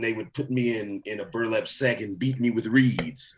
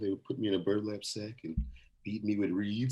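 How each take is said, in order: First: It is said plainly, without dramatic sadness. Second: It is said dramatically, in a sad, serious tone.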